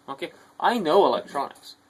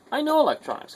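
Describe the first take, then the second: First: Said in the usual way. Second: "know" pushed much higher; emphatic repeat. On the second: Real, not acted. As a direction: insist on "know" with a sharp high lift.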